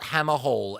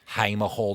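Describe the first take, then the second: First: The first syllable sounds like 'ham'. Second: The first syllable sounds like 'hay'. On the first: The speaker calls it wrong. "not Hammer Hall, as someone said to me the other day" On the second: The speaker calls it right. "Hamer Hall, not Hammer Hall"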